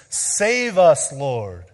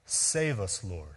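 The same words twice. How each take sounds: First: A raised crowd's cry. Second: Soft, dropped plea; a hushed save us; quiet plea. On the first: Retold or imitated. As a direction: call "Save us" out urgently. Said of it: "crying out to Jesus". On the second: Shown as a demonstration. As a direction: say it gently, as a prayer. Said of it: "It quite literally means".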